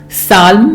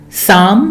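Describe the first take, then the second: No difference in how they are said.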